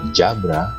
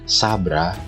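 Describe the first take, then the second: First: The first sound is a j. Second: The first sound is a plain s. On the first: "atau jabra" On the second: "Jadi bukan sabra"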